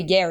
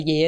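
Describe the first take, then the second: First: "yeah" carefully pronounced in an international accent; new clear yeah. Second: Put-on "yeah" the old North Queensland way, drawn into a broad yeh. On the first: Showing friends her new pronunciation, "yeah" said very clearly. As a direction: say "yeah" clearly, opening it out toward yair. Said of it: "But now I say yeah as yeah". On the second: Showing friends her old pronunciation, "yeah" in broad North Queensland. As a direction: say "yeah" low, without any r, in North Queensland style. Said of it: "I used to say yeah as yeah". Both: Shown as a demonstration.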